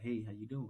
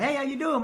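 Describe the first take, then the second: First: It is said in a low, flat monotone. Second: It is said in a lively, kid-like voice.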